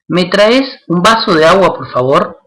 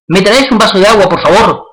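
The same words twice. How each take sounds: First: The request sounds calm and neutral. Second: The request sounds forceful and charged. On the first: The request makes no particular impact. "En ese caso, no genera eh, ningún impacto" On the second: The request has a strong effect despite the polite words. "con otro tono de voz"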